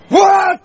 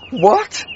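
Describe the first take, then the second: First: It sounds sharper and more angry. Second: It sounds miserable, like after sad news.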